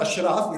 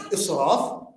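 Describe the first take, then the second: First: The word begins with an 'ash' sound. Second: The word begins with an 'is' sound. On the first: The speaker calls it wrong. "It's not ashraf, in our lingua it becomes ashraf" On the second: The speaker calls it right. "it's israf"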